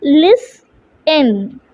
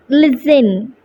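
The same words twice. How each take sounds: First: "Listen" in two beats, lis, long pause, ten; split into syllables. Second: Said in the usual way. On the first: Shown as a demonstration. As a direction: pull "Listen" apart into two separate syllables. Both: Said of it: "How will we split this word?".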